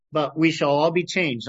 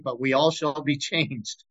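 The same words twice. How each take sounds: First: Said in the usual way. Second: A small laugh breaking into the verse; amused laugh. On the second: Real, not acted. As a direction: chuckle just before the last word. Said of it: "I always laughed at that".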